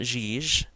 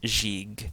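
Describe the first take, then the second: First: Both G sounds are soft, like J. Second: The first G is soft, the last hard. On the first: The speaker calls it wrong. "It's not Jij" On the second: The speaker calls it right. "the first Ganga is going to be a soft G or a J sound... the last Ganga is a hard G sound"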